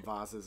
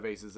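First: "vases" with a long ay, rhymes with faces; "vases" said the vayce way; pronounced VAY-siz. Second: "vases" with a broad ah, rhymes with Roz's; "vases" said the vahz way; pronounced VAH-ziz. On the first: Shown as a demonstration. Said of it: "I call them vases". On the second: Retold or imitated. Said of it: "she calls them vases".

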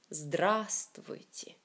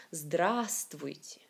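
First: Здравствуйте whispered very slowly, its A stretched, the tune rising at the end; slow whispered здравствуйте with its A long, ending on a rise; stress on the A. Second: Здравствуйте said very slowly in a whisper, falling at the end; slow whispered Здравствуйте with its A drawn out, the tune falling; stress on the A. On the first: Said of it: "c'est une seule A qui est vraiment accentuée". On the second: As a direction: stretch the A of Здравствуйте, breathy and slow. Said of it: "j'ai écrit ce mot Здравствуйте avec une A plus grande, plus haute".

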